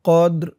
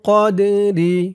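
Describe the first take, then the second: First: The word ends on the r, no final vowel. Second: The word ends with a short i vowel. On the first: The reader stops at this word. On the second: The reader carries on without stopping.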